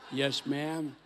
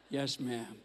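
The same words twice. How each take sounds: First: "Yes" stressed, falling firmly; a brisk, obedient "Yes, ma'am"; a crisp, dutiful answer to his wife. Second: A quieter, gentler "Yes, ma'am" with a falling "Yes"; a meek husband's soft reply; softer yes ma'am. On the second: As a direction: give in meekly. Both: Shown as a demonstration. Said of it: "Comes with different tone inflections".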